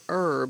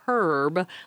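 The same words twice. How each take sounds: First: The word begins with a vowel, no H sound. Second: The word begins with an audible H sound. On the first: "we use an herb, E-R-B" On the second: "aspirate the H and say a herb, like the man's name"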